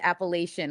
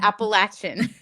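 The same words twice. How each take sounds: First: The word is said the northern way. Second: The word is said the non-northern way. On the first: This is how the speaker said it before. "that was when I called it Appalachian when I was of the North" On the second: This is how the speaker says it now. "Now it's"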